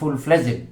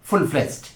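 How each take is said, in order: First: Fledged is said with two syllables, ending 'jed'. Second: Fledged is said with one syllable, ending 'jd'. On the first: The speaker calls it wrong. "বাংলাদেশে অনেকেই বলেন full ফ্লেজেড, না সেটি ভুল" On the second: The speaker calls it right.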